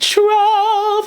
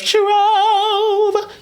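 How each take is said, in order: First: The vowel is long and round, barely gliding. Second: The vowel glides clearly as a diphthong. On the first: "She leaned less into the diphthong" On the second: "The trove has a diphthong"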